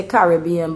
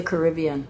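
First: "Caribbean" as CARR-ih-BEE-an; Bajan pronunciation. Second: "Caribbean" as kuh-RIB-ee-an; adopted local pronunciation. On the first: Contrasting the Barbados way, "Caribbean" as CARR-ih-BEE-an. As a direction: open first syllable, stressed BEE in "Caribbean". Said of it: "We say". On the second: Living abroad now, "Caribbean" as kuh-RIB-ee-an. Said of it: "but living here now, I say". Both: Shown as a demonstration.

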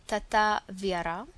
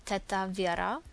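The two takes are said the same way.

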